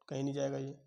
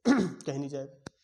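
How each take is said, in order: First: Said in the usual way. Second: कहीं नहीं जाएगा said slowly and much louder, कहीं punched; stressed answer. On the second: Shown as a demonstration. Teacher drives the answer home to students, loud and slow.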